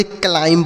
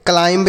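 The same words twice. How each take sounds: First: क्लाइंब with a silent b, like klaim; the right way, ending on m; correct pronunciation. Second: क्लाइंब with the final b sounded; the wrong way, with the silent b spoken; wrong pronunciation. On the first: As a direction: say क्लाइंब and drop the final b. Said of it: "यह silent है". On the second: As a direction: say क्लाइंब ending on a clear b. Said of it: "इसे नहीं पढ़ेंगे". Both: Shown as a demonstration.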